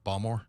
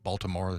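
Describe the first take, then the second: First: The middle syllable is dropped, giving two syllables. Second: All three syllables are pronounced in full. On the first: This is how locals say it. "it's Balmore" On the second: This is the standard way to say it. "they don't say Baltimore"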